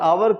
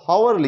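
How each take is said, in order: First: The word begins directly with a vowel sound. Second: The word begins with an audible H sound. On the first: The speaker calls it right. "एच silent रखते हैं, आवर पढ़ते हैं" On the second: The speaker calls it wrong. "एच O यू आर हावर लिखा हुआ है"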